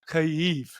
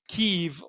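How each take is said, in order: First: The name is said in the native Ukrainian form. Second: The name is said in the Russian-style form. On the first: The speaker calls it right. "like a native, it would be Kyiv with two e sounds" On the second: The speaker calls it wrong. "That's the Russian way of saying that"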